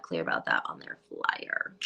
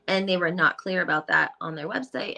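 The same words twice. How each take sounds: First: Muttered emphatic repeat; lower, softer repeat. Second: Said in the usual way. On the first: Real, not acted.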